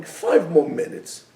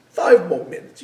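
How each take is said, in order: First: Slow coaxing. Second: Urgent but mild insistence; pleading insistence. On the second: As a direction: press the point, urging. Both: Retold or imitated. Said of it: "that's the voice that goes in our heads".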